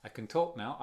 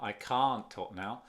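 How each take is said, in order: First: "can" quick and unstressed before a stressed "talk"; weak can. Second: "can't" long and stressed, its T joined to the T of "talk"; T merged into talk. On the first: Teacher repeating the contrast for learners, weak "can". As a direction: rush lightly through "can" to "talk". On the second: Teacher repeating the contrast for learners, strong "can't". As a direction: stretch "can't" and run it straight into "talk". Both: Shown as a demonstration. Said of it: "se junta aquí con el T".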